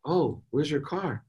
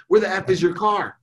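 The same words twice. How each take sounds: First: Slow, raised pitch, soft question; gentle, calm. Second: High-pitched, demanding outburst; acted anger. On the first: Retold or imitated. Dad calmly asking daughter about car, gentle. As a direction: ask it slowly and lightly, without blame. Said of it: "in the right mindset". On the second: Dad interrogating daughter about car, angry. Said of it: "I would have called in anger".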